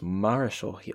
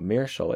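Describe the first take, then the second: First: The word is said in the accepted pronunciation. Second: The word is said in the rejected pronunciation. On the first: The speaker calls it right. "it's Marischal" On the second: The speaker calls it wrong. "it's not Meershal"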